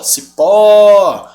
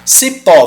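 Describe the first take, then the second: First: "Cipó" with a loud, long final ó; stressed last syllable. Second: Said in the usual way. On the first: Shown as a demonstration. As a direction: hold and punch the -pó of "Cipó". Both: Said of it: "sílaba tônica é a última".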